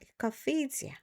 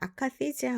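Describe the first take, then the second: First: It has an English pronunciation with a reduced first vowel. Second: It has a Korean pronunciation with full, even syllables. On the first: "순수한 영어 발음일 경우에는 에라는 말이 잘 안 들려요. 그래서 커가 좀 더 크죠" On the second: "우리나라의 정신과에서는 아카시지아라고 발음이 되는 경우도 있어요"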